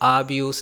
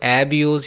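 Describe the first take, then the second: First: The first vowel is a long ah sound. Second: The first vowel is a clear eh sound. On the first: "एब्यूज़ या आब्यूज़ नहीं बोलना" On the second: "एब्यूज़ या आब्यूज़ नहीं बोलना"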